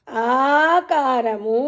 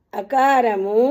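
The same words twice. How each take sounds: First: ఆకారము with the opening ఆ drawn out long and slow; long aa sound. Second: అకారము with a short clipped opening అ; short a sound. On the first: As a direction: stretch the ఆ in ఆకారము, slowly. (ఆకారము లో ఆ ని దీర్ఘంగా, నెమ్మదిగా సాగదీసి పలకండి) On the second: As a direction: say అకారము crisply, short vowel. (అకారము హ్రస్వంగా, చిన్నగా పలకండి) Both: Shown as a demonstration. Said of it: "అనండమ్మా".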